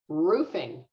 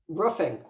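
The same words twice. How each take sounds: First: The first vowel is a long ooh sound. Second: The first vowel is a short uh sound. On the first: "so I use that ooh sound" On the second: "So it's an uh sound"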